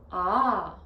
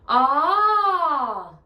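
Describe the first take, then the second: First: The vowel is held briefly. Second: The vowel is held much longer.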